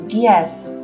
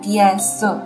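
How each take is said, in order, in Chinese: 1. 这两个词连成一个音读。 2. 这两个词分开读，没有连读。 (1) "而是读的DS，……这个横线起到的作用就是将两个单词连起来读" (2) "我朗读的时候没有读DS"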